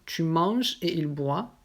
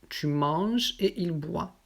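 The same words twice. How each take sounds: Both takes have the same delivery.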